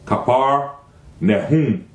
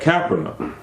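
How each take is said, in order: First: It is said with an h before the end. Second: It is said without an h before the end. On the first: The speaker calls it right. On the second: The speaker calls it wrong.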